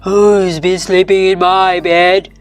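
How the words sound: It is a deep, gruff, growling voice.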